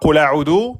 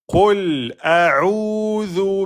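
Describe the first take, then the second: First: The words run together without a pause. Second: A short pause follows the first word. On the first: The speaker calls it wrong. "Ne dites pas" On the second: The speaker calls it right.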